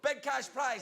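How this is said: It is said in a Scottish accent.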